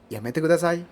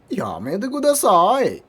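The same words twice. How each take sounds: First: It is said plainly, without much melody. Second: It is said with marked melody and expression. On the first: It is how ordinary Japanese speakers say it. "Kalau yang Jepang kan Yamete Kudasai kayak gitu kan" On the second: It is how anime characters say it. "Kalau yang versi anime kan Yamete Kudasai ini gitu kan"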